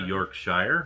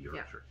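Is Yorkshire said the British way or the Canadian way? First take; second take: Canadian; British. First: Yorkshire is said with a Canadian pronunciation. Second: Yorkshire is said with a British pronunciation. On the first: "In Canada, you'd say Yorkshire" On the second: "you in the UK would be Yorkshire"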